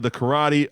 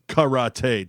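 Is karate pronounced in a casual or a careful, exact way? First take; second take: casual; careful. First: The word is said in a casual everyday way. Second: The word is said with careful, exact pronunciation. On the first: The speaker calls it wrong. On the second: The speaker calls it right.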